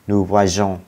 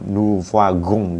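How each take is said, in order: First: The consonant before the ending is a soft zh. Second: The consonant before the ending is a hard g. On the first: The speaker calls it right. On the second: The speaker calls it wrong.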